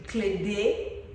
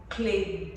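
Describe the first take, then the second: First: Clade said as klede, her own name; Clade, the native way; right pronunciation. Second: Clay said as one English syllable; Clay, the usual English mistake; Clay, dropping the final sound; wrong pronunciation. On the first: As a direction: Clade with both syllables kept. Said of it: "My name is pronounced Clade". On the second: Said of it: "they always call me Clade or". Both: Shown as a demonstration.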